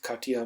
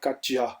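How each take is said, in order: First: The J is said like a Y. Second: The J is said like English J. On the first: The speaker calls it right. "जे को आप ये पढ़ेंगे या वाई पढ़ेंगे जर्मन में" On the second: The speaker calls it wrong. "अगर मैं इसको इंग्लिश में पढ़ता तो मैं कहता कटजा"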